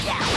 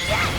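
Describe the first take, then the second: Both takes have the same delivery.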